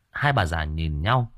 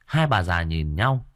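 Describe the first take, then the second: No difference in how they are said.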